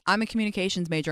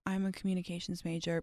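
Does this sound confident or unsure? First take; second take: confident; unsure. First: The voice sounds confident and enthusiastic. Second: The voice sounds hesitant and unenthusiastic. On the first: The speaker is passionate about the subject. The speaker calls it right. "If you say, I'm a communications major, I'm so interested in XYZ ... people are going to be like, damn, that's sick" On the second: The speaker seems not that into the subject. The speaker calls it wrong. "If you're like, oh, I'm a communications major, people are going to be like, oh, she's not that into it"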